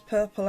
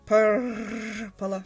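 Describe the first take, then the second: First: The R sounds are said without rolling. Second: The R sounds are attempted with a roll. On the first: "I'm going to keep pronouncing it that way" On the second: "I'm going to attempt the, the, the rolling of the R's"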